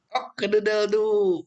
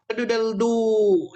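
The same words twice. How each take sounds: First: Rooster crow. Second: Higher, slow cock-a-doodle-doo; rooster crow. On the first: Teacher repeats the English rooster crow to the class. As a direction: crow out Cock-a-doodle-doo once more. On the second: Teacher demonstrates the English rooster crow to the class. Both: Shown as a demonstration. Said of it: "orang Inggris bilangnya".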